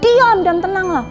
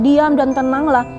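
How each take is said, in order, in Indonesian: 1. Diucapkan dengan keras, sebagai teguran tajam. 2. Diucapkan dengan nada bacaan biasa yang datar. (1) "Yesus pun menghardik" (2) "dengan cara bacaan yang biasa"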